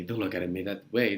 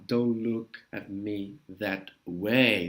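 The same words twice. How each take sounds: First: Said in the usual way. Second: Drawn-out, low, word-by-word phrase; slow model line. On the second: Shown as a demonstration. Teacher models the film line slowly. (frase bem devagar, em tom grave)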